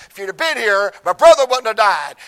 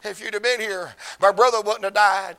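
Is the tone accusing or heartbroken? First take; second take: accusing; heartbroken. First: It sounds confrontational and accusing, like Martha. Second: It sounds broken and weeping, like Mary.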